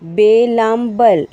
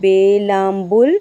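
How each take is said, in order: First: The final syllable has an 'a' vowel. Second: The final syllable has a 'u' vowel.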